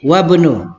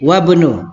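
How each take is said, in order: First: The i is dropped, linking into wabnu. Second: The i is dropped, linking into wabnu.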